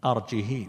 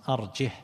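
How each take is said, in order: First: "أرجه" as arji-hee, long final i; no glottal stop in "أرجه", final kasra lengthened; kasra with ishba'. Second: "أرجه" as arjih, closed on a silent-vowel h; no glottal stop in "أرجه", ending on plain h; without hamza. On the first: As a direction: draw out the ending of "أرجه" into hee. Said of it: "بالإشباع". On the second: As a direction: say "أرجه" short, with no final vowel. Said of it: "من قرأ بغير همز". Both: Shown as a demonstration.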